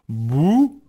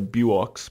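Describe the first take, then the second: First: The name ends with a plain 'oo' vowel. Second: The name ends with a 'ks' sound. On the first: The speaker calls it right. "So I'd say it's like boo" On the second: The speaker calls it wrong. "if I didn't know a bit of French, I'd say buox, but I know it's not that"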